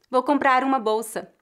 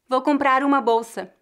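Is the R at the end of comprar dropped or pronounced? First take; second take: pronounced; pronounced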